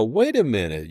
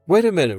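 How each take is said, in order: First: Said in the usual way. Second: Suddenly realizing, pitch jumps up; surprised. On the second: Retold or imitated. Retold conference amazement.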